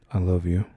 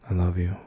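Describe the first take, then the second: No difference in how they are said.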